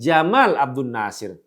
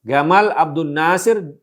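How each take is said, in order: First: The first name begins with a j sound. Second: The first name begins with a hard g sound.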